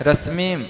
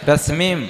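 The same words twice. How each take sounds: Both takes have the same delivery.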